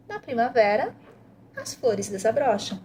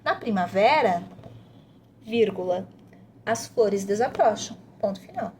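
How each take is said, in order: First: "Na primavera" rises at the comma, "as flores desabrocham" falls to a full stop; expressive intonation. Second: Said in the usual way. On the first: Shown as a demonstration. Parent modeling punctuation intonation for the child, rise then fall. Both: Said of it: "você vai mostrando pra criança pra que que serve a pontuação".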